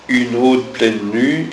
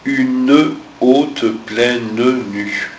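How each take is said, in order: First: The e of une is dropped and linked. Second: The e of une is heard before haute. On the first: The speaker calls it wrong. "quand tu as lu une haute pleine nue" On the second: The speaker calls it right. "il aurait fallu dire une haute pleine nue"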